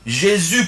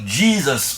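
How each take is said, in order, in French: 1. Le nom est prononcé à la française. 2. Le nom est prononcé à l'anglaise. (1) "pour nous, les francophones" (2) "pour les anglophones"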